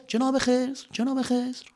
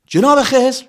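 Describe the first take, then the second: First: Softer and softer echoing call; fading cave echo. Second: High loud call across a cave. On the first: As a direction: let the name echo away. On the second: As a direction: call his name into the dark. Calling out, echo in cave. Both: Acted.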